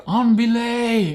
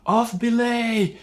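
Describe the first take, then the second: First: High, slow called-out command; mock call. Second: High, slow misheard call; mock call. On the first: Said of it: "they're gonna say". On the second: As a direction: echo the misheard command. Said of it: "you're gonna think they said".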